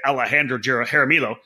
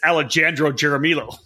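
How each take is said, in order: First: The name is said with its usual pronunciation. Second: The name is sounded out as it is spelled. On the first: "when you're trying to spell, I don't say Alejandro Jaramillo" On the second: "It's Alejandro Jaramillo when you try to spell it correctly"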